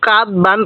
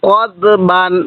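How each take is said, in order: First: The first syllable has an open 'a' vowel. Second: The first syllable has an 'o'-like vowel. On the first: The speaker calls it wrong. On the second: The speaker calls it right.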